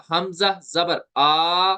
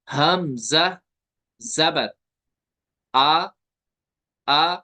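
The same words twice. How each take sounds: First: हमजा जबर आ with the आ dragged out long; stretched vowel. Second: हमजा जबर आ spelt out slowly, the आ neither stretched nor jerked; gentle Arabic reading. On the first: Teacher showing the mistake of stretching, आ drawn out. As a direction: stretch the final आ well past its length. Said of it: "तो ये हो गया खींचना". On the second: Teacher modelling correct reading, gentle medium-length आ. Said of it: "हम पढ़ेंगे ऐसे". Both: Shown as a demonstration.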